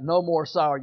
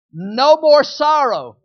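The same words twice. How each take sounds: First: Said in the usual way. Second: Chanted, "No more sorrow" louder and slow, "more" stressed; chanted, call it out slowly for all to repeat; slow emphatic chant. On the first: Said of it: "Let's say it like that". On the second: Shown as a demonstration. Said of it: "I'm gonna start all over".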